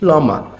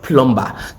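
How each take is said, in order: First: The word is said without a B sound. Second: The word is said with a B sound. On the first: The speaker calls it right. "Yes, plumber, The B is silent" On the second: The speaker calls it wrong. "not plumber"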